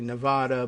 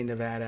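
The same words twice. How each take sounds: First: It uses a non-local pronunciation of the name. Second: It uses the local pronunciation of the name. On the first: "which is actually Nevada" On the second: "but they say Nevada, and I like to go with the local pronunciations"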